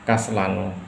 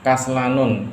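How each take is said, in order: First: The word ends on a plain 'u' vowel. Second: The word ends with an added 'n' sound. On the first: The speaker calls it right. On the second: The speaker calls it wrong.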